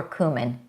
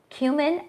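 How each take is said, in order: First: Cumin said as KOO-min; KOO-min pronunciation. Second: Cumin said as KYOO-min; KYOO-min pronunciation. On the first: Host offering the other way to say it, cumin as KOO-min. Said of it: "I don't know which is proper". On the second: Host asking which way is proper, cumin as KYOO-min. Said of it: "Do you say cumin or cumin?". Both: Shown as a demonstration.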